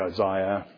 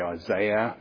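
First: The name is said with an Australian pronunciation. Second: The name is said with an American pronunciation. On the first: "Australians say Isaiah" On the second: "you Americans say Isaiah"

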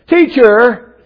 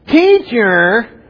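First: It is said in a plain, ordinary voice. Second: It is said in a whiny, complaining voice.

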